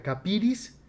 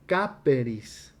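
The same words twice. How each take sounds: First: Capiris, said at normal pace as the form to avoid; name capiris in passing, then move on; the rejected form capiris. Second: Caperis, drawn out slowly syllable by syllable; the correct form caperis. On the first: Teacher naming the rejected form to his class, plain pace. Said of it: "en lugar de que diga". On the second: Teacher giving his class the correct form, slow and deliberate. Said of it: "en lugar de que diga capiris". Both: Shown as a demonstration.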